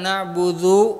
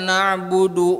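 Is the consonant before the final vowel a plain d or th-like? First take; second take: th-like; plain d. First: The consonant before the last vowel is a th-like dh. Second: The consonant before the last vowel is a plain d. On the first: The speaker calls it wrong. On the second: The speaker calls it right.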